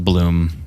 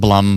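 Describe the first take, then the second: First: The vowel is a long 'oo' sound. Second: The vowel is a short 'uh' sound. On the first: The speaker calls it right. "but a Bloom" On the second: The speaker calls it wrong. "Not a Blum"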